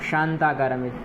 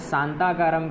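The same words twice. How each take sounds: First: The first consonant is a palatal 'sh' sound. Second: The first consonant is a plain 's' sound. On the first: The speaker calls it right. "सही है" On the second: The speaker calls it wrong. "यह गलत उच्चारण है"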